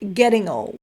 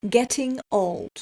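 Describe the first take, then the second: First: The t sounds like a soft, quick d. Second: The t is pronounced as a clear t.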